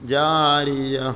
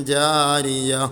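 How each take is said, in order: The two takes are said the same way.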